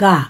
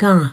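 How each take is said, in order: First: The vowel is said without nasal sound. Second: The vowel is said through the nose. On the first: It means body. "উচ্চারণটাই একটা হলো গা" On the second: It means village. "নাকে লাগিয়ে বলছি"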